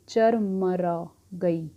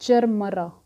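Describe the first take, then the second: First: "चरमरा गई" said very slowly, syllable by syllable; drawn out slowly. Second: "चरमरा" punched out louder; stress on चरमरा. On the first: Teacher spelling out "चरमरा गई" for students, very slowly. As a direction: stretch out every sound of "चरमरा गई". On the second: Teacher makes students notice the word "चरमरा", punched louder. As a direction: hit "चरमरा" hard, like a loud crack. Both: Shown as a demonstration. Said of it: "इस word पे ध्यान दो".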